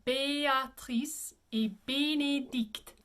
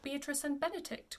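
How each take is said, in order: First: Béatrice et Bénédicte as "bay-ah-treess ay bay-nay-deekt"; closed é in Béatrice et Bénédicte; French pronunciation. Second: Beatrice and Benedict with English vowels; English names. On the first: Teacher models the French title, French pronunciation. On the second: Teacher introduces the title before French, English pronunciation. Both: Shown as a demonstration. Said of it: "say this in French".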